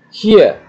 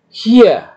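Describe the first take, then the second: First: Hier again with a long high I; long vowel repeated. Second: Hier with a long drawn I, high; long vowel. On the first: Teacher repeats the long-vowel model. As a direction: hold the I in Hier. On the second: Teacher shows the long vowel to students. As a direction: stretch the I in Hier. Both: Shown as a demonstration. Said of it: "Dipanjangkan seperti ini".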